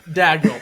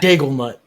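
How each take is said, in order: First: No L sound comes before the final syllable. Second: An L sound comes before the final syllable. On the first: The speaker calls it right. "definitely Daignault" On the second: The speaker calls it wrong. "The L and the A just took a trip to the end of Daig"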